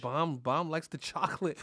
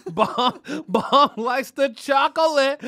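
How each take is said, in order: First: Said in the usual way. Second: Loud, high, drawn-out crowing; loud teasing. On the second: Real, not acted. Host ribs Bomb about his taste, loud teasing. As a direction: crow it slowly through a laugh. Teasing repeat, much louder.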